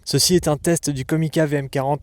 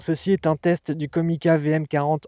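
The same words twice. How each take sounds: First: The high frequencies are boosted. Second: Strong noise reduction is applied. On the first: "en mode High Frequency Boost" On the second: "en mode Denoise High"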